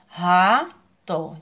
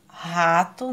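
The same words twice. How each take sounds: First: Rato split as ra... to; syllable by syllable. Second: Said in the usual way. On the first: Shown as a demonstration. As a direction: stretch and stress each syllable of Rato. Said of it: "Duas sílabas". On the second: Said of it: "como é que fica?".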